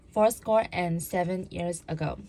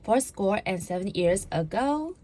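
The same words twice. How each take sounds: First: "ago" falling, stated firmly; plain statement. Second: "ago" rising like a question; up talk. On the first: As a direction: read "fourscore and seven years ago" as a settled statement. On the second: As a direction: end "Fourscore and seven years ago" on a questioning rise. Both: Shown as a demonstration. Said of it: "So it sounds like this".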